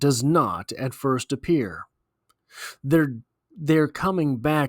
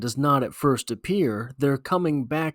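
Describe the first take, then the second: First: There is a full pause after 'appear'. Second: 'Appear' runs straight on into 'their'. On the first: The dead seem close, so their return seems possible. "with the semicolon, this is how that stanza sounds" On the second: Their coming back is what does not at first appear. "Without that semicolon, this is how it sounds"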